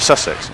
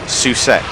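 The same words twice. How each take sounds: First: The word is said quickly, clipped short. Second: The word is said slowly, each part drawn out. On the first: This is the local way to say it. The speaker calls it right. "You say it real quick" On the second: This is how an outsider would read it. The speaker calls it wrong. "like an American would pronounce that"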